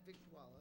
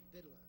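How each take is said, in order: First: The word has four syllables with a k sound. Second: The word has two syllables with no k sound. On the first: The speaker calls it wrong. "not Victuala" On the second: The speaker calls it right. "it's Vittler, as in don't eat your vittles"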